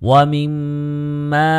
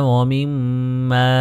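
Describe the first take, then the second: No difference in how they are said.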